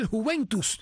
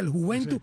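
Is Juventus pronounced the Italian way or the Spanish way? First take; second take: Spanish; Italian. First: Juventus is pronounced the Spanish way. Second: Juventus is pronounced the Italian way. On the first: This is how the speaker would say it. "yo diría" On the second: This is how a colleague says it. "como un italiano"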